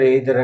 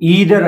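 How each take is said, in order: First: The first vowel sounds like 'eye'. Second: The first vowel sounds like 'ee'. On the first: "మనం regular గా ఎయిదర్ ఎయిదర్ అని pronounce చేస్తూ ఉంటాం" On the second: "మీరు దీన్ని ఈదర్ అని pronounce చేయాల్సి ఉంటుందండి"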